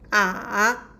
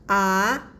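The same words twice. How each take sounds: First: The pitch dips down, then rises again. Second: The pitch rises from middle to high. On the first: "we will go down and uh, rise again" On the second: "it's a rising tone"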